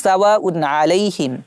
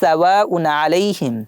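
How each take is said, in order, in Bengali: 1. n ধ্বনিটি স্পষ্টভাবে উচ্চারিত। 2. n ধ্বনিটি স্পষ্টভাবে উচ্চারিত।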